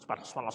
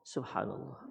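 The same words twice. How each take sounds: First: It is said fast and hurried. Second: It is said slowly and feelingly.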